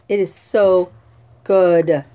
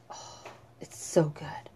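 First: Said in the usual way. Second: Breathy whisper of delight; whispered praise, then said aloud. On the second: Acted. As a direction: whisper it like a secret treat.

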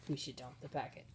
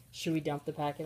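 First: Soft conspiratorial whisper. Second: Said in the usual way. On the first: Pretend. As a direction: whisper it like a secret plan.

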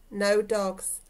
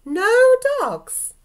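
First: Said in the usual way. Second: High, loud shocked outburst; drawn-out, scandalised exclamation; indignant disbelief. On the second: Acted. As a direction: echo it back in loud, high-pitched outrage. Outraged reaction to the letter's ban.

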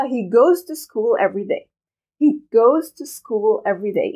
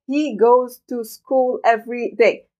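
First: "goes" strongest, "school" a little, linked and natural; stress on goes. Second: Very slow, every word equal and separate; robotic. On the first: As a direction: punch "goes", flow the rest. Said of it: "عم بعمل ستريس أكتر شي على كلمة goes". (شدد على goes وقليلًا على school) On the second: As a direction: read it like a machine, no stress. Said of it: "ما حتسمعون أبدًا عم يلفظوها بهذه الطريقة". (بطريقة آلية بطيئة جدًا) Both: Shown as a demonstration.

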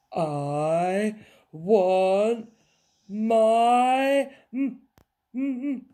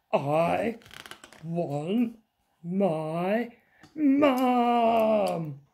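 First: Loud, rising whine that breaks off; faltering wail. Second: Put-on whiny child, Mum drawn out high and loud; wailing little princess. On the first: Princess left at castle, wail petering out. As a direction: start the wail, then stall on the m. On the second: Princess upset over her soggy picture, wailing. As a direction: wail for your mum word by word. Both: A narrator's reading.

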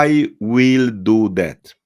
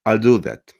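First: Slow, word-by-word "I will do that"; over-articulated "I will do that", stretched out; careful Polish learner. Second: "I'll do that" run together as al-do-that; connected, shortened "I'll do that"; native contraction. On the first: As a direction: say "I will do that" with every word full. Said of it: "Polacy powiedzą". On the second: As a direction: say "I'll do that" with I'll shrunk to al. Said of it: "rodowici mówcy". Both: Shown as a demonstration.

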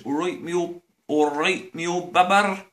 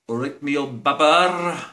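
First: Put-on "me old babber" said properly in broad Bristolian; corrected greeting. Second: "babber" said wrong, to be corrected; a foreign student's shaky "me old babber"; mangled greeting. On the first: Students' greeting redone right, broad Bristolian. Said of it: "Okay, that's better". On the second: Students botching the Bristol greeting, mangled. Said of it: "they don't say that. I got that wrong". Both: Shown as a demonstration.

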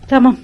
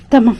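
Both takes have the same delivery.

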